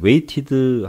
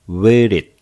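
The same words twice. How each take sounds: First: The middle t is a crisp, hard t. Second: The middle t is soft, close to r. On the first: The speaker calls it wrong. "waited 하지 말고" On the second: The speaker calls it right. "water 하듯이 T자를 부드럽게 R에 가깝게"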